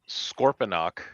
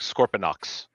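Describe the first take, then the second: First: The name ends with a plain k sound. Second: The name ends with a ks sound. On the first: This is the traditional pronunciation. "that the way I just pronounced it, that is the traditional way to pronounce the name" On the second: This follows a variant spelling in some scripts. "Sometimes it sounds like Scorponox with an X at the end"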